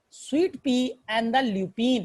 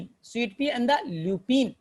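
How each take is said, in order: First: Slow, word by word; sweet पी drawn out slowly; slow dictation. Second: Very slow, each word apart; slow dictation repeat. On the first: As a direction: spell it out for the class. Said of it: "teacher dictating plant names". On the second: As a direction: drill it into memory. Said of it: "teacher repeats names to memorise". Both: Shown as a demonstration.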